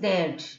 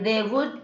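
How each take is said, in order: First: The words merge into one contracted syllable. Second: Both words are said in full, separately. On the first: "they would means they'd" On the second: "they would means they'd"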